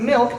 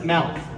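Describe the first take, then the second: First: The vowel is the usual 'ih' sound. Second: The vowel sounds like 'ah', in her mom's Fontana way.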